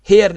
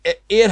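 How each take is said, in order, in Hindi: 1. यह शब्द एक साफ़ सुनाई देने वाली h ध्वनि से शुरू होता है। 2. यह शब्द सीधे एक स्वर ध्वनि से शुरू होता है। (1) "हेयर नहीं बोला" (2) "एयर हमने बोला"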